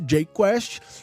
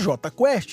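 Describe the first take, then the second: First: The J is said as English jay. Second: The J is said as Portuguese jota. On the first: This is the band's original name. "no início, J-Quest" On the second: This is the band's changed name. "J-Quest em português"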